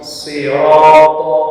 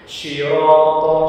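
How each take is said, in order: First: The word begins with a plain 's' sound. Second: The word begins with an 'sh' sound. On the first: The speaker calls it right. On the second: The speaker calls it wrong.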